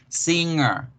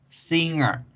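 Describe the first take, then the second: No difference in how they are said.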